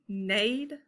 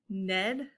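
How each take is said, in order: First: The vowel is a long a, as in made. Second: The vowel is a short e, as in bed. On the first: "I've never heard of that" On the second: "that doesn't sound right either"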